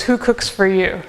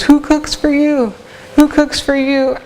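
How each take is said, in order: First: Said in the usual way. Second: High, slow hooting "Who cooks for you?" with the pitch up; playful owl hoot, "Who cooks for you?" high and slow; owl call imitation. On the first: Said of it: "the mnemonic for it is". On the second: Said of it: "he says".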